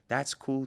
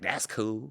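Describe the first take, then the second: First: It is said in a genuine, sincere tone. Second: It is said in a shady, sarcastic tone. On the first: The speaker truly accepts those who leave. The speaker calls it right. "I'm saying it like" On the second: The speaker secretly resents those who leave. The speaker calls it wrong. "I don't say that in a shady way, like"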